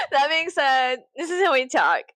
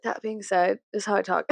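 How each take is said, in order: First: Amused, exaggerated "this is how we talk". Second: Said in the usual way. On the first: Shown as a demonstration. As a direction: repeat it higher through laughter. Repeats the line laughing, exaggerated.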